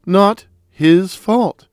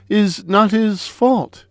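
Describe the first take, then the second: First: "Not his fault" slow, leaning on "fault"; slow down and weigh "fault"; slow emphatic repeat. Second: Said in the usual way. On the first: Shown as a demonstration. Repeating the defense to Comrade Green, slow stress on "fault".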